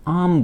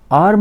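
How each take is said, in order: First: आर्म as "aam", r dropped; silent r. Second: आर्म with a rolled r, shown as wrong; wrong form. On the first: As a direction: say आर्म without the r. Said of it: "आर इसमें silent रहता है". (सही उच्चारण, र बिना "आम") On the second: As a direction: say आर्म with a clear r to show the error. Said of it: "आर्म नहीं बोलते". (ग़लत उच्चारण, र के साथ आर्म) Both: Shown as a demonstration.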